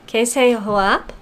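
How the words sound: The voice rises at the end.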